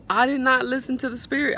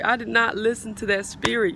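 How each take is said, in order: First: I did NOT listen; emphatic regret. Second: Said in the usual way. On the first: Real, not acted. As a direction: stress on not.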